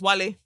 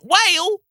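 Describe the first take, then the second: First: It is not said like the English word whale. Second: It is said like the English word whale. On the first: This is the name's real pronunciation. The speaker calls it right. "your name is Wale" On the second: The name is being mispronounced by someone else. The speaker calls it wrong. "Greg will mispronounce your name. He'll call you Whale"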